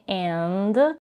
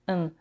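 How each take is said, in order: First: The word is said fully with its vowel and d. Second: The word is reduced to a short n sound. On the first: "she's not saying and" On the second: "she says n"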